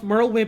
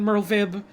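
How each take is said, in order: First: The consonant after Merl is a W sound. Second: The consonant after Merl is a V sound. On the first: "I've heard like uh, Merlwyb as both"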